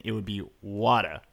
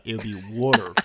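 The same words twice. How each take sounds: First: Water with a dropped r, Boston style: wah-tah; Boston water, r-less; Boston accent. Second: Water as wooder, Philly style, with an r at the end; Philly water, r kept; Philadelphia accent. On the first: Shown as a demonstration. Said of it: "so in my regional accent, which is Boston". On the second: Retold or imitated. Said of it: "In his regional accent, which is Philadelphia".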